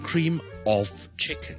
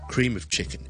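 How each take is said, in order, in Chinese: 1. 'of' 这个词的元音是完整的，不连读。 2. 'of' 这个词的元音是弱读的，要连读。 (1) "我哋唔会读成cream of chicken 嘅" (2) "通常咧就会连埋啦，同埋好弱嘅vowel 读成cream of chicken"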